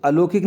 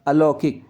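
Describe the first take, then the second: First: अलौकिक said as "a-lo-kik", plain o; wrong vowel demo. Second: अलौकिक as "a-lau-kik", open au; correct vowel demo. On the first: Teacher showing the error, अलौकिक as a-lo-kik. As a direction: round the middle of अलौकिक to o. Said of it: "अलौकिक नहीं होगा ये". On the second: Teacher answering "kya hoga", अलौकिक as a-lau-kik. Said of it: "इसमें दो मात्रा आएंगी". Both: Shown as a demonstration.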